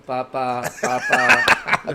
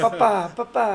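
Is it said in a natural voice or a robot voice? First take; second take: robot; natural. First: It is said in a robotic voice. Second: It is said in a natural human voice.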